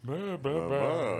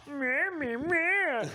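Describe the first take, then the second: First: Fond mumbled meh. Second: High, sneering "meh meh meh"; mocking blah blah. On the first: Retold or imitated. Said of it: "everyone you love, you read". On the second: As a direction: sneer it in a high nasal mock. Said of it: "you read everything".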